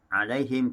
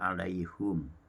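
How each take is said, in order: First: The vowel after h is an i sound. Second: The vowel after h is a u sound.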